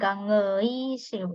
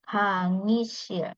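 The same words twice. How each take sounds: First: The middle vowel is said as ui. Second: The middle vowel is said as plain i. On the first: The speaker calls it wrong. "Jadi bukan 강의실" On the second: The speaker calls it right. "tapi langsung 강의실"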